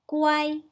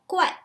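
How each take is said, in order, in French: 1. La syllabe est prononcée avec le premier ton. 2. La syllabe est prononcée avec le quatrième ton. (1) "si on prononce avec le premier ton" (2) "si on prononce avec le quatrième ton"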